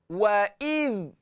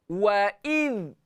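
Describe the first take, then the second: Both takes have the same delivery.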